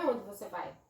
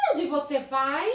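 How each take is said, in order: First: "vai" falls away, low and soft; no question intonation. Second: Rising question tune on "vai"; questioning intonation. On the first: Teacher showing pupils how not to read a question, "vai" falling. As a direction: drop "Onde você vai" low, with no rise on "vai". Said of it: "Não é". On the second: Teacher showing pupils how to read a question, questioning intonation. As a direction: lift "vai" at the end as a clear question. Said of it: "a interrogação". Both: Shown as a demonstration.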